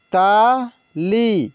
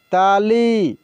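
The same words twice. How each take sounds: First: Tali drawn out very slowly, sound by sound; slow dictation of Tali; slow spelled-out reading. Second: Said in the usual way. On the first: Shown as a demonstration. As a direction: stretch Tali for the learners. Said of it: "teacher reads word slowly". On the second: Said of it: "teacher says word normally".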